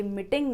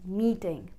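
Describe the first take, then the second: First: "मीटिंग" with a short i in the first syllable; wrong MEETING. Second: "मीटिंग" with a long ee; correct MEETING. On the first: Teacher showing learners the common mistake, "मीटिंग" with short i. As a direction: say "मीटिंग" clipped to mit-ting, short vowel. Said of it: "तो ये मीटिंग नहीं". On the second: Teacher correcting learners, "मीटिंग" with long ee. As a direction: stretch the first vowel of "मीटिंग", mee-ting. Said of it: "ये है मीटिंग". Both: Shown as a demonstration.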